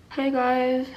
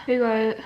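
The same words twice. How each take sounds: First: Lips stretched wide, never closing; talking with lips held open. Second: Said in the usual way. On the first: Shown as a demonstration. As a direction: say it without letting the lips close. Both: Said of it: "What if my lips never close and I just talk like this?".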